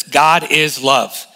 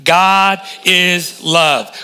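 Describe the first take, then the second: First: God is love, each word weighed slowly; slow emphatic declaration. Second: God is love drawn out very slowly; very slow call and response. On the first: Pastor leads the church in saying God is love, slow and firm. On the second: Pastor has the congregation repeat God is love, very slow. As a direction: stretch God is love for the church to echo. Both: Shown as a demonstration. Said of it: "Can you say that with me".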